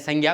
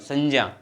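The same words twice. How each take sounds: First: The cluster is said with a g-like sound. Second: The cluster is said with a j-like sound. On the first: This is how people usually say it. The speaker calls it wrong. "हम कर दे कर देते हैं संज्ञा" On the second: This is the pure pronunciation. The speaker calls it right. "शुद्ध उच्चारण जो है संज्ञा होना चाहिए, जय जय"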